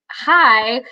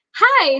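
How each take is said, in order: First: Said in the usual way. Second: Much higher, nervous little hi; starstruck hi. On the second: Retold or imitated. Waitress greeting her idol, high nervous hi.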